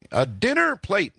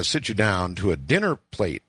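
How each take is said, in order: First: "dinner" hit high and drawn out slowly; stress on dinner plate. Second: Said in the usual way. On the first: Shown as a demonstration. Host repeats phrase for emphasis.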